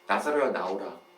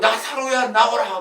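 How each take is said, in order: First: It is said in a soft, ordinary voice. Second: It is said in a loud voice.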